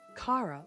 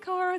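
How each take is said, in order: First: The first vowel is an open 'ah' sound. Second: The first vowel is not an 'ah' sound. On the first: The speaker calls it right. "like as in ah" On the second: The speaker calls it wrong. "I just have an accent"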